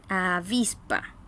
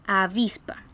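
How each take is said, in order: First: "avispa" drawn out low, stressing VIS; low, slow "avispa", a-VIS-pa; slow penultimate stress. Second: "avispa" raised, with stress on VIS; stress on penultimate syllable. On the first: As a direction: repeat "avispa" slowly, leaning on VIS. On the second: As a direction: lift and stress the middle of "avispa". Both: Shown as a demonstration. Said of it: "se acentúan en la".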